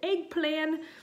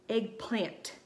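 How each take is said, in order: First: The final T sound is dropped. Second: The final T sound is hit very hard. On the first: "she pronounced it eggplan" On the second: "emphasizing the T so vigorously"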